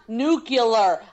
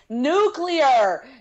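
First: It is said as 'nu-cu-lar' with an extra vowel. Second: It is said as 'nu-clear' without an extra vowel. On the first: The speaker calls it wrong. "Like there's an extra U before the C" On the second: The speaker calls it right. "it's nuclear"

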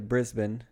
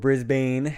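First: It is said the non-American, local way. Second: It is said the way Americans say it.

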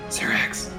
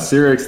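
First: It is whispered. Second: It is spoken in a normal voice.

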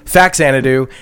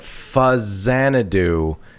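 First: The first syllable sounds like fax. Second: The first syllable sounds like fuzz. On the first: This is the common reading of the written name. The speaker calls it wrong. "I think most people read that as Faxanadu" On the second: This is the intended pronunciation of the name. The speaker calls it right. "technically it's how you're supposed to pronounce it"

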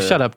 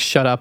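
First: It sounds playful and amazed, like friendly disbelief. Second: It sounds annoyed and curt, like a rebuke. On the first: The speaker is friendly and amazed, not offended. "it also completely depends on like how you say it" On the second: The speaker is rudely telling someone to stop talking. "that's not cool"

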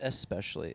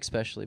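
First: The word begins with an 'es' sound. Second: The word begins with an 'ex' sound. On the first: The speaker calls it right. "It's especially" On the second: The speaker calls it wrong. "Don't say especially, please"

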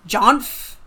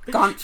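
First: The name starts with a J sound. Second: The name starts with a hard G sound. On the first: "Maybe like Jeffrey" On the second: "I've been pronouncing it Gonf"

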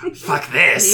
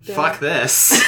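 First: It is said in a put-on lizard voice. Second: It is said in a normal voice.

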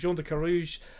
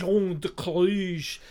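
First: The name is said with an English accent. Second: The name is said with a French accent.

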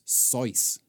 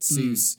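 First: The name is said with German sounds. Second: The name is said with English sounds. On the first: This is the original family pronunciation. "if it was pronounced how it's supposed to be, it's a German surname" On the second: This is the commonly accepted pronunciation. "his classmates couldn't pronounce it either. They said"

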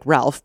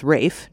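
First: The name is said with an L sound. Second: The name is said without an L sound. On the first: The speaker calls it wrong. "his first name looks like Ralph" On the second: The speaker calls it right. "but it's Rafe"

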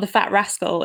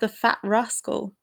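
First: It is said in a Yorkshire accent. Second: It is said in a standard, non-regional accent.

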